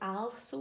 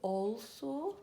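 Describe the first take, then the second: First: The first vowel sounds like a short 'a'. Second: The first vowel sounds like 'all'. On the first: The speaker calls it wrong. "We don't say also" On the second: The speaker calls it right. "we say also"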